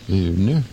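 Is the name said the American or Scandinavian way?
Scandinavian. The name is said the Scandinavian way. "if you're up in the Scandinavian part, you'd pronounce it Erner"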